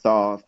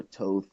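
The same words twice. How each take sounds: First: "Thoth" said THAWTH, open AW vowel; Romanized pronunciation. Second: "Thoth" said TOHTH, hard T and long O; alternative Romanized pronunciation. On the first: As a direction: say "Thoth" with an AW as in thaw. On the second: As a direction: say "Thoth" with an OH as in tote. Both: Shown as a demonstration. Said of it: "the Romanized version of his name".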